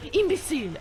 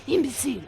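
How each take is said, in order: First: A higher, scornful Imbecile in a fake French accent; mock French accent. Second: Imbecile again in a fake French accent, a touch calmer; mock French accent. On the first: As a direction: sneer Imbecile like a cartoon Frenchman. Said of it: "I can't do French accents". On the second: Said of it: "that's a good one".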